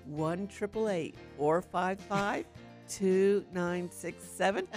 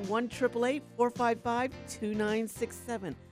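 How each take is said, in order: First: The number is said slowly. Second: The number is said at normal speed.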